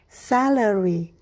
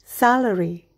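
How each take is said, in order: First: The word is said slowly. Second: The word is said quickly. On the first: "berlatih dengan perlahan" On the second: "berlatih dengan lebih cepat"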